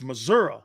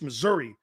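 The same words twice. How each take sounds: First: Missouri is said with a local Midwestern pronunciation. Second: Missouri is said in a plain, standard way. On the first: "That's a true Midwesterner right there" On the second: "It's not just Missouri"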